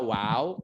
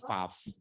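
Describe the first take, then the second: First: The word begins and ends with a W sound. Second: The word begins and ends with a V sound. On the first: This is the ancient pronunciation. "Zaman Musa wow" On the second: This is the modern pronunciation. "tapi modernnya sekarang di Israel Faf atau V"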